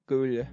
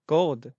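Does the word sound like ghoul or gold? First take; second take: ghoul; gold. First: The word sounds like ghoul, ending in l. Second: The word sounds like gold, with an l-d ending. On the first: The speaker calls it right. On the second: The speaker calls it wrong. "It's ghoul, not gold"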